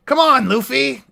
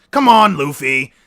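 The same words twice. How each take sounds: First: Higher put-on Usopp whine; attempted Usopp voice. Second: Said in the usual way. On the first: Shown as a demonstration. Pleading with Luffy, higher Usopp voice. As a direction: pitch it up like Usopp. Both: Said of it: "Yeah, I gotta".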